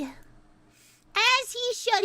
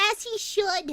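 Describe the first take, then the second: First: Very slow, stretched out; as he should dragged out slowly, every word lingering; slow drawn-out repeat. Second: Said in the usual way. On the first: Shown as a demonstration.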